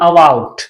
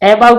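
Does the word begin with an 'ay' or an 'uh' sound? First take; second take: uh; ay. First: The first vowel sounds like a short 'uh'. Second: The first vowel sounds like 'ay'. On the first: The speaker calls it right. "ए से अ का उच्चारण भी आता है" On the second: The speaker calls it wrong. "अबाउट नहीं पढ़ते हैं"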